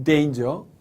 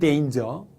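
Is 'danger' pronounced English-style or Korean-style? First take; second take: English-style; English-style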